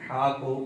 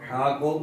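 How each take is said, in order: Both takes have the same delivery.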